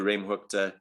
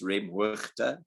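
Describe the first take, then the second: First: The g is said as a hard k. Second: The g is a rasp from the throat. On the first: This is understood by everyone in South Africa. "So just say the G like a K" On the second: This is the Dutch way of saying it. "The the G is like a so right from the back of the throat"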